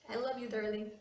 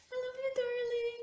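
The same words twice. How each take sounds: First: Said in the usual way. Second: High sweet. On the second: Real, not acted. Tender message, repeated much higher.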